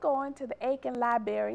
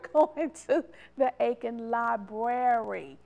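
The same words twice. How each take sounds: First: 'Library' is said without the first R sound. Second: 'Library' is said with the first R sound. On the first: The speaker calls it wrong. "No, you are not" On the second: The speaker calls it right. "The second word is the correct way"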